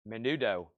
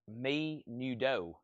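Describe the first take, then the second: First: The first vowel is a short 'eh' sound. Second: The first vowel is a long 'ee' sound. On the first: The speaker calls it right. "it's meh" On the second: The speaker calls it wrong. "it looks like me nudo"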